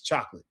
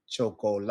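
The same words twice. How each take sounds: First: Chocolate rushed as English "chok-lit"; chocolate in two quick English syllables; English pronunciation. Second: Chocolate in Spanish, cho-co-la-te, every syllable sounded; chocolate measured out as Spanish cho-co-la-te; equal time per syllable. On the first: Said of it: "like English". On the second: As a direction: give all four syllables of chocolate equal time, ending on "teh". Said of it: "am I giving equal time to each syllable". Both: Shown as a demonstration.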